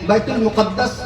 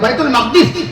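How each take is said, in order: First: The name ends with the sounds 'muqaddas'. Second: The name ends with the sounds 'maqdis'. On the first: "बैतुल मुकद्दस भी सही है" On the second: "सही फसी जो लफ्ज है"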